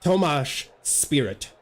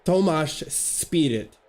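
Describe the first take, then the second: First: Slow, sounding out Tomáš with a sh ending; practising a Czech name carefully, slowly; careful Czech name try. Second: Very slow Tomáš Spirit, sh at the end of Tomáš; slowed, deliberate second attempt at the Czech name; slow careful retry. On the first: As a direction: say Tomáš Spirit slowly, sh at the end of Tomáš. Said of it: "let me try". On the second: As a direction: draw out Tomáš Spirit, testing each sound. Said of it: "I'm mad curious". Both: Shown as a demonstration.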